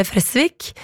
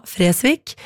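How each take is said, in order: First: Fresvik with short E and long S; kort E, dobbel S. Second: Fresvik with long E, single S; lang E. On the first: Shown as a demonstration. Host passing on the correction, short E in Fresvik. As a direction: say Fresvik as Fressvik, clipping the first vowel. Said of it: "uttales med kort E". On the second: Retold or imitated. Host recalling his own mistake, long E in Fresvik. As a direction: stretch the first vowel of Fresvik. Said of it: "det skal jo uttales med kort E".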